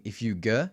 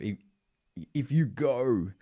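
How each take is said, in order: First: "go" said with the vowel shaded toward er; closed vowel go. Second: "go" in a clipped Australian vowel, sung a bit higher; "if you go" with the open Australian "go". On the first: Coach contrasting the shaded "go" with his accent. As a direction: say "go" closed, almost "ger". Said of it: "you can hear me singing". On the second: Coach showing the clipped Australian "go" that fails. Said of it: "instead of". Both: Shown as a demonstration.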